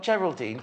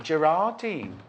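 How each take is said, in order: First: "Geraldine" with an L sound in the middle; "Geraldine" as the mistaken name; wrong name read. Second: "Gerardine" with an R, "Jer-ar-deen"; "Gerardine" said properly; corrected name. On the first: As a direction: say "Geraldine" with L, the misreading. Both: Shown as a demonstration. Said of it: "it says, not Geraldine".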